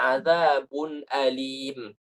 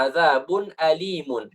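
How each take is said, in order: First: "alim" drawn out slowly, ending on a closed m; pausal ending. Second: "alimun" with the final "un" fully sounded; full tanwin ending. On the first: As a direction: stop on a long "alim" with no final "un". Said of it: "Kalau kita sudah waqaf". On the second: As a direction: end "alimun" on an audible n. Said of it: "Asalnya azabun alimun". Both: Shown as a demonstration.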